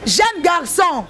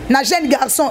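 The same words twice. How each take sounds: First: "Jeune garçon" drawn out very slowly, falling at the end; slow emphasis. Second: Said in the usual way. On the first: Shown as a demonstration. Repeating the phrase slowly to drive it home.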